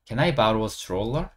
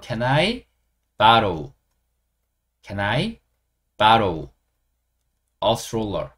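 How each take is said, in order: First: Can I borrow a stroller, drawn out with rising end; slow model sentence. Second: Can I / borrow / a stroller, split by long pauses; chunk by chunk. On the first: Teacher modelling an example sentence for learners, slowly. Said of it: "예문을 하나 만들어 드릴게요". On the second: Teacher building the example for learners, chunk by chunk. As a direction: break Can I borrow a stroller into separate pieces. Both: Shown as a demonstration.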